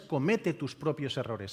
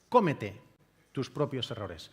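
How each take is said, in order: First: The first word is stressed on its second syllable. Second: The first word is stressed on its first syllable. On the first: Make your own mistakes. The speaker calls it wrong. "no es comete tus propios errores" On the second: Eat your own mistakes. The speaker calls it right. "es solamente una tilde"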